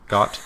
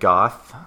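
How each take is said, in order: First: The word ends with a plain 't' sound. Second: The word ends with a 'th' sound.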